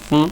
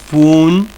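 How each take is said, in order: First: The vowel u is cut very short. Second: The vowel u is held long. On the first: The speaker calls it right. "sino es fun, fun. Cortito, bien cortito" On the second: The speaker calls it wrong. "no es fun"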